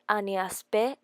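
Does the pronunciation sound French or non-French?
French. It is said with a French pronunciation. The speaker calls it right. "It will be more elegant if you say"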